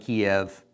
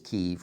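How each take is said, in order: First: The name has its older English pronunciation. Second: The name is said closer to Ukrainian. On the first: This is how it used to be called. "When I was growing up, they called it Kiev" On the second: This is the more correct local form. "the correct pronunciation is Kiev, or at least the very best we can do uh, in our English, trying to, to speak um, Ukrainian"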